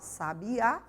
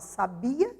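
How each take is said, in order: First: The stress is on the last syllable. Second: The stress is on the middle syllable. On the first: It names a kind of bird. "estou me referindo ao substantivo que se refere a um pássaro" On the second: It is the past tense of 'to know'. "estou me referindo ao verbo saber"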